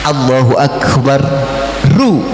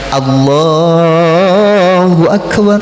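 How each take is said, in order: First: Akbar ends with an added 'u' vowel. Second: Akbar ends on the consonant 'r'. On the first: The recitation continues without stopping. "kalau mau dilanjutkan" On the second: The recitation stops here. "kalau mau diwakafkan"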